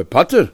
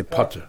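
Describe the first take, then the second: First: "Potter" swung upward into a question; question mark tone. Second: Said in the usual way. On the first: Acted. Injured man answers with a question, question mark tone. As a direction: throw "Potter" back as a doubting question. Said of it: "Since I asked in a question mark". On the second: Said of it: "factual tone".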